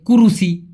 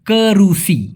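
First: The first vowel sounds like 'u'. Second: The first vowel sounds like 'e'. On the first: The speaker calls it wrong. "অনেকে বলে কুরুসি" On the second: The speaker calls it right. "তবে সঠিক উচ্চারণটা হবে কেরুসি"

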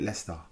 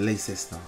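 First: Several spelled letters are dropped from the word. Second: Every spelled letter is sounded in the word. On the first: This is how British people say it. "They call it Leicester. Where did the first E, I, and C go to?" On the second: This is how the spelling suggests it. "they don't pronounce it Leicester"

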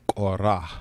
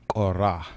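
No difference in how they are said.

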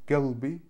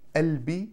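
First: The word starts with a g sound. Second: The word starts with a soft glottal onset. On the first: This is how Gulf dialects say it. "Галби на иракском, саудовском" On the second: This is how Egyptian and Syrian dialects say it. "Мое сердце на египетском и на сирийском"

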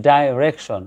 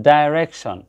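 Both takes have the same delivery.

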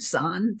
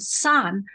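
First: The word is said with the third tone. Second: The word is said with the fourth tone. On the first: It means powder. "third tone means powder" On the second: It means to scatter. "with the fourth tone, san, means to scatter"

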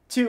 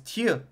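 First: It has an American 'oo' vowel. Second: It has a French vowel with a Y quality.

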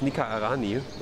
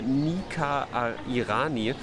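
First: The name is said quickly, run together. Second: The name is said at a normal pace.

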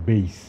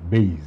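First: The word ends with an s sound. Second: The word ends with a z sound. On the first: The speaker calls it right. "Actually বেইজ উচ্চারণটা বেইজ না, বেইস" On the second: The speaker calls it wrong. "অনেক বছর ধরে আমি বেসকে বেইজ বলছি"

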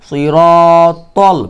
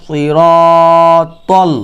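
No difference in how they are said.

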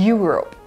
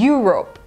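First: The word begins with a 'yu' sound. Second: The word begins with a 'yu' sound.

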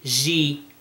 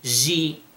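First: The j sound is softened toward sh. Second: The j sound is softened toward sh.

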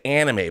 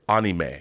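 First: The word is said with an English pronunciation. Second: The word is said with a Japanese pronunciation. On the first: This is how most people say it. "I know people say anime" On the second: This is how it is said in Japan. "the actual Japanese pronunciation that I've always heard is anime"

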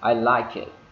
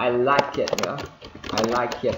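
First: The ending sounds are reduced. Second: The ending sounds are fully pronounced. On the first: The speaker calls it right. "mà chúng đọc là I like it" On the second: The speaker calls it wrong. "Không phải là I like it nữa"

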